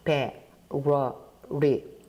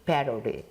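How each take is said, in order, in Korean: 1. 이 단어는 천천히, 신중하게 발음해요. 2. 이 단어는 빠르고 매끄럽게 발음해요. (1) "제가 좀 천천히 발음을 해보죠" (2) "좀 빨리 읽게 되면"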